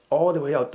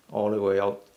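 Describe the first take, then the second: First: Higher, louder push; urging coach. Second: Said in the usual way. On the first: Real, not acted. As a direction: urge them on, pitched up and forceful. Urges students to push further.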